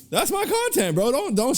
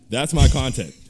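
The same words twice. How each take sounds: First: Much higher, excited repeat of "That's my content". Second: Said in the usual way. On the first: Real, not acted. Podcaster hyping the clip he loved, excited and much higher. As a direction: jump way up on "That's my content" like he's thrilled.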